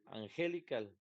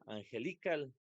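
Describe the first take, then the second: First: The stress is on the second syllable. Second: The stress is on the third syllable. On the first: "No puede ser la segunda porque diría angelical" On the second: "si fuera li, diría angelical"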